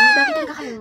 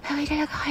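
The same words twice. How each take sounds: First: High, soft "Bakit talaga kayo?". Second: "Bakit talaga kayo?" almost inaudible; even softer. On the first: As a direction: ask it timidly and soft. (mahina at mataas na tanong) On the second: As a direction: fade it to nearly nothing. (halos bulong na tanong) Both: Acted. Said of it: "Sobrang ina ng boses".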